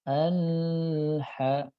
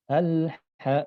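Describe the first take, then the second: First: The L sound is held before the H. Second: The L flows briefly straight into the H. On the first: The speaker calls it wrong. "tidak boleh al-ha, tidak boleh ditahan" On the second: The speaker calls it right. "tapi langsung al-ha"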